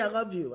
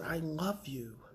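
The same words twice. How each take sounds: First: It is said quickly and casually. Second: It is said slowly and heartfelt.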